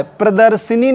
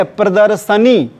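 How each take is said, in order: First: प्रदर्शनी said with "shi" before नी; an i slipped into प्रदर्शनी; wrong form. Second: प्रदर्शनी with "sha" before नी; no i after श in प्रदर्शनी; correct form. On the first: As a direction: say प्रदर्शनी as pradar-shi-nee. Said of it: "नहीं है". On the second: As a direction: say प्रदर्शनी as pradar-sha-nee. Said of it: "शुद्ध शब्द क्या है?". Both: Shown as a demonstration.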